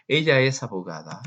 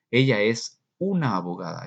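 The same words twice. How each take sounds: First: Said in the usual way. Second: «una» alargada y marcada; stress on una. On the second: Shown as a demonstration. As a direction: subraya «una» con una vocal larga. (acento en «una» estirada) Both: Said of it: "Eso así lo dices en inglés".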